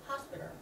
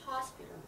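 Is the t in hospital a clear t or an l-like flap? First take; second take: flap; flap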